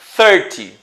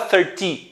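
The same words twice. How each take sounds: First: The stress is on the first syllable. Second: The stress is on the second syllable. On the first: The speaker calls it right. "a sílaba inicial é a mais forte" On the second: The speaker calls it wrong. "Você não fala thirty"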